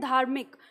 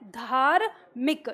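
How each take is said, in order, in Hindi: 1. र जल्दी बोला जाता है, म से जुड़ा हुआ। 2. र पूरा बोला जाता है, अपने स्वर के साथ। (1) "र जो है वो बहुत जल्दी से उच्चारण होता है।" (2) "मान लो पूरा र लें, तो ये धार्मिक ऐसे होता"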